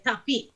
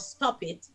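First: "tap it" for stop it, with no S; "tap it" said with the S dropped; patois "tap it". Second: Said in the usual way. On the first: Shown as a demonstration. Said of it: "we say tap it". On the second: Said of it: "instead of stop it".

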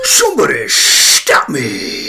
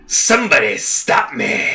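First: Slow, louder Mask impression. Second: Lightly voiced Mask, slow and drawn out; a hint of Jim Carrey's Mask, savoring it. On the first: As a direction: stretch it out like the Mask. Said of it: "Do I gotta say the same thing?". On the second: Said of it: "do the better Mask voice".

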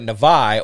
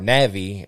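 First: Navi said as nuh-VYE; first pronunciation variant. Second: Navi said as NAV-ee; alternative pronunciation. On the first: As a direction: say Navi with an "eye" ending, stress on the second syllable. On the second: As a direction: say Navi with an "ee" ending, stress on the first syllable. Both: Shown as a demonstration. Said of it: "however you pronounce it".

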